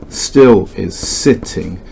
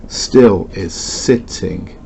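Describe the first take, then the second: Both takes have the same delivery.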